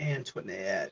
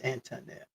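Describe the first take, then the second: First: The name has an extra 'went' sound in it. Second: The name has no extra 'went' sound in it. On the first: The speaker calls it wrong. "My bad. I put the went in there" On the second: The speaker calls it right. "It's Antoinette"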